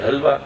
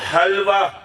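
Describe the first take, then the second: First: The first h is a plain, light breath. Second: The first h comes harshly from deep in the throat. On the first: The speaker calls it wrong. "नहीं नहीं बेटा हलक से" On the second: The speaker calls it right. "हलक से"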